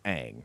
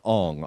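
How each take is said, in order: First: The name is said the way the cartoon says it. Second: The name is said the way the movie says it. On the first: This is the original version of the name. The speaker calls it right. "It's Aang" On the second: This is the film's altered version of the name. The speaker calls it wrong. "Ong is how they pronounce it in that, that fucking movie"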